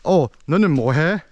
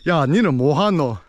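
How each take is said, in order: First: It is said in standard Seoul Korean. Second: It is said in the Busan dialect.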